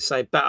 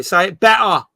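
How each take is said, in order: First: Said in the usual way. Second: Firm, louder demand to say it better; insist, a bit louder: say it better; commanding quote. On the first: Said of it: "I'll be, "Say it better". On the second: Retold or imitated. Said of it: "I'll be".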